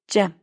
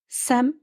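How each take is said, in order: First: The word begins with a J sound. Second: The word begins with an S sound. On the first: The speaker calls it right. "Telaffuzu Cem" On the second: The speaker calls it wrong. "Sem değil"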